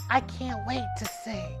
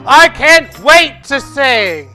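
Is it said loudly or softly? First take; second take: softly; loudly. First: It is said softly and small. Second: It is said loudly and projected.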